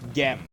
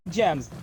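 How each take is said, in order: First: It starts with a hard G sound. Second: It starts with a soft J-like G sound. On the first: "the G makes the G sound" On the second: "Not gems"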